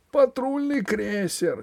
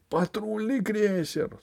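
First: High, drawn-out alarmed cry; a different voice, cry in alarm; shout from crowd. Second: High, slow panicked howl; panicked wail. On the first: Someone in the hall raising the alarm, high cry. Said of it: "крикнул кто-то в зале". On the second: Usurper fleeing the patrol cruiser, panicked wail. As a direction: wail it in terror. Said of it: "завопил узурпатор". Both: A narrator's reading.

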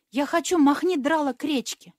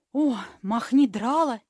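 First: Said in the usual way. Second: Slow, loud and shocked repeat of махни драла; mock horror. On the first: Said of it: "повторила фея". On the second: A narrator's reading. Fairy echoing the boy's slang in mock horror. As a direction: echo махни драла as if it were a shocking word. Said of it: "в ужасе повторила фея".

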